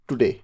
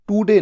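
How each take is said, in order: First: The first vowel is short and light. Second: The first vowel is long and drawn out. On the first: The speaker calls it right. "थोड़ा सा टू" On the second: The speaker calls it wrong. "बड़े ऊ की मात्रा नहीं, टू डे नहीं"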